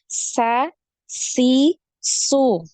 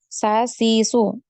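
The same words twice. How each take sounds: First: The s sound is sharp with flowing breath. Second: The s sound is cut short without airflow. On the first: The speaker calls it right. "Harus ada ya. ... Jadi tajam" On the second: The speaker calls it wrong. "jangan cuma sa, si, su, ya. Tidak ada alirannya"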